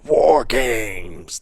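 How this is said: It is voiced with a froggy, croaky sound. "That's bad. That's a little bit froggy"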